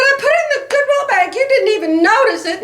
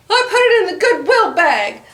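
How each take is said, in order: First: The words "I put it in the Goodwill bag" repeated much higher and fast; exasperated repeat. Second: Said in the usual way. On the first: Retold or imitated. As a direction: throw "I put it in the Goodwill bag" back at him, half-whining. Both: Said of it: "And I said".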